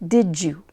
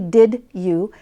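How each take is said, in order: First: The two words are blended into one reduced sound. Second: The two words are said fully and separately. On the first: "Listen to how I reduce that" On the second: "I don't say"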